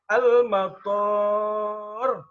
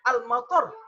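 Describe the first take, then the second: First: The second syllable has a long vowel. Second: The second syllable has a short vowel. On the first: It means airport. "to-nya panjang" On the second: It means rain. "kalau kita baca pendek"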